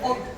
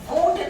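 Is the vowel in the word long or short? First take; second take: short; long. First: The vowel is kept short. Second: The vowel is drawn out long. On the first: The speaker calls it right. "उसी तरह से वुड" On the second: The speaker calls it wrong. "वुड नहीं"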